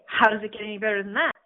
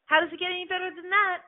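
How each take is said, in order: First: Said in the usual way. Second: High, wondering question to the universe; curious, pitched-up question. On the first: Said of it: "You will hear me say". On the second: Pretend. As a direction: ask with open curiosity, voice lifted. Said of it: "asking the universe".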